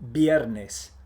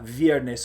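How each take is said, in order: First: The word starts with a B sound. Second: The word starts with a buzzing V sound. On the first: The speaker calls it right. "you should say B" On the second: The speaker calls it wrong. "Don't say"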